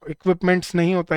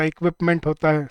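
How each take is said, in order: First: इक्विपमेंट्स said with a marked final s as the wrong form; wrong plural form. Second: इक्विपमेंट stressed with no s at the end; correct singular form. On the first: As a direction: stress the s ending of इक्विपमेंट्स. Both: Shown as a demonstration.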